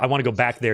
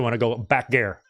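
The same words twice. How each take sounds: First: It is said in a plain General American accent. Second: It is said in a Southern American drawl. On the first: The speaker calls it wrong. "you don't say" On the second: The speaker calls it right. "You say"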